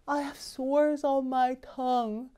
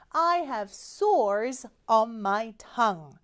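First: The words are slurred, as if the tongue hurts. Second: The words are spoken clearly and normally.

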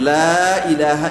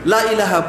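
First: The first vowel is drawn out long. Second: The first vowel is cut short. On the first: There is no true god except God. The speaker calls it right. "লামের পরে আলিফ আছে" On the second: There is a god besides God. The speaker calls it wrong. "লা টেনে না পড়ে"

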